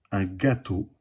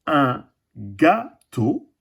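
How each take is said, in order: First: Said in the usual way. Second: Gâteau drawn out very slowly; slow teaching word. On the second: Shown as a demonstration. A teacher showing the class gâteau, very slowly. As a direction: stretch un gâteau for the children. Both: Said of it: "Et le dernier dessin".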